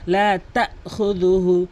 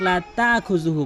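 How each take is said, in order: First: লা তাখুযুহু with a catch after "ta"; hamza pronounced. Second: লা তাখুযুহু with smooth long "taa"; hamza left out. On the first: Teacher correcting learners, লা তাখুযুহু with clear hamza. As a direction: cut "ta'" short with a glottal stop in লা তাখুযুহু. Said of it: "হামজার উচ্চারণ করতে হবে". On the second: Teacher showing the common error, লা তাখুযুহু without hamza. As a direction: glide through "taa-khu" in লা তাখুযুহু, no catch. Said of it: "হামজার উচ্চারণ এখানে করে না". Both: Shown as a demonstration.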